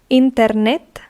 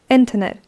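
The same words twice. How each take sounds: First: It is pronounced with Spanish sounds and stress. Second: It is pronounced with English sounds and stress. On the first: "Internet in Spanish" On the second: "internet in English"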